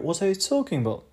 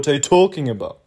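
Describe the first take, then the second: First: The word talking is made higher in pitch. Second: The word talking is made louder.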